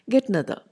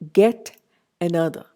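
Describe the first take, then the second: First: The first vowel of another is dropped. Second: The first vowel of another is fully pronounced.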